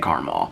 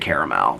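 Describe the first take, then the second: First: The word is said the Indiana way, as 'carmel'. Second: The word is said the non-Indiana way, as 'caramel'. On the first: This is how most Indiana people say it. "They say caramel" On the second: This is how most Indiana people don't say it. "most people don't say caramel"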